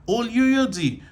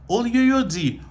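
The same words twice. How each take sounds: No difference in how they are said.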